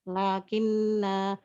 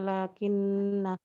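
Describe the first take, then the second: First: The final vowel is lengthened to two beats. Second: The final vowel is short, not lengthened. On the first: The reciter stops on the word. "huruf mad alif yang dibaca dua harokat" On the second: The word is joined to what follows. "tidak dipanjangkan sama sekali"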